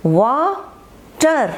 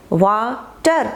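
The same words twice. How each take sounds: First: water very slow, a gap between वा and टर; syllable by syllable. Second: Said in the usual way. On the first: Shown as a demonstration. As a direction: stretch and split water as वा, टर. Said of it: "पहले W ए एक साथ पढ़ा". (Water को वा और टर में तोड़कर, खींचकर) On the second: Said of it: "फिर टर".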